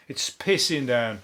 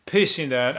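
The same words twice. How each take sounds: First: Slow, dragged-out moan about the rain; slow grumble. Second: Said in the usual way. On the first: Shown as a demonstration. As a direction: drag out "pissing down" low and slow.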